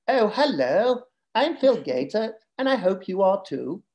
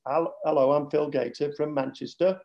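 First: High, mock Southern English accent. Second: Northern English accent. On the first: Dad copying his kids' teasing, high Southern English accent. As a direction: put on a plummy Southern English voice, pitched up. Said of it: "they do a Southern English accent". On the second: Shown as a demonstration. Dad showing his real Manchester accent, flat Northern English. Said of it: "my Northern accent".

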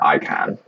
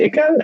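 First: "Icon" said as EYE-kahn; long-i pronunciation. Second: "Icon" said as ICK-un; short-i pronunciation. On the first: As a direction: open "Icon" like "eye", then a full "kahn". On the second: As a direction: open "Icon" with the short i of "ick", weak second syllable. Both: Shown as a demonstration. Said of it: "is it Icon or Icon?".

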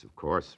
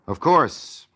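First: Said in the usual way. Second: Ironic. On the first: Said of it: "replied the newspaper man". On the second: Acted. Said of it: "says Orson Welles".

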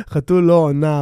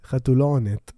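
First: "עונה" ending in a plain open a. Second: "עונת" closing on a clear final t; ending with t. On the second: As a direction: land the punchline "חתול לא עונת" with a crisp t. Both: Shown as a demonstration. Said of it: "אבל לא עונת".

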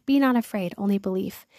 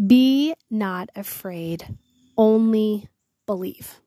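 First: Said in the usual way. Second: Slow, drawn-out solemn reading of the verse; solemn scripture reading. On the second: Acted. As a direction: lingers over each word as holy scripture. Reads Jesus's words solemnly.

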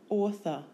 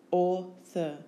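First: Said in the usual way. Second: "Author" split into au, thor; syllable by syllable. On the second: Shown as a demonstration. Teacher giving syllables for spelling, Author in two beats.

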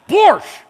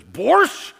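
First: "Borscht." barked much higher and louder, falling; loud repeat. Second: Curt questioning "Borscht?" with a rising tune; scowling offer. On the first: Stewardess repeats the soup offer to a confused passenger, loud and impatient. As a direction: shout "Borscht." at someone who didn't understand. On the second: Stewardess scowls, offering soup to the preacher: curt "Borscht?". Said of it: "she's just got this scowl". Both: Retold or imitated.

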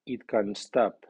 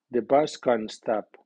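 First: "It" only moderately accented, landing on "stop"; medium stress on pronoun. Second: Strongly accented "bus" in the statement; strong stress on noun. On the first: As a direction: keep "It" light before "can stop". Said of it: "el pronombre ... lleva acento medio". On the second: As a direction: hit "bus" hard, slowly, reduce "can". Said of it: "El nombre lleva acento fuerte". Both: Shown as a demonstration.

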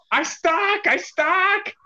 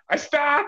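First: Much higher playful yell; mock yell. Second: Imitating stuck wrestler. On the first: Friend's catchphrase yelled, much higher playful yell. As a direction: yell it like a running joke. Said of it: "will yell". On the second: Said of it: "Lockjaw yelling".

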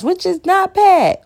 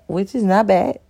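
First: Which is not bad with bad sung high and slow; high sing-song take. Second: Said in the usual way. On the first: Shown as a demonstration. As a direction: lift the whole line way up, drawn out on bad.

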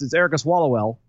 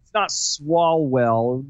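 First: Erica Swallowell, run together like "swallow well"; slurring the name into Erica Swallowell. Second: Swalwell drawn out slowly as SWALL-well; slow, deliberate sounding-out of Swalwell; careful slow pronunciation. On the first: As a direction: let the name slip into "Swallowell". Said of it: "'Cause if you say it fast". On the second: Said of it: "say it slowly to get it right". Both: Shown as a demonstration.

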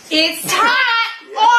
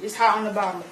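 First: Raised, insistent shout; exasperated yell. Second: Said in the usual way. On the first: Acted. Same warning, now exasperated.

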